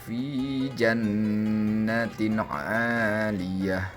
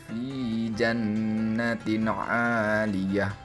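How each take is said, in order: The two takes are said the same way.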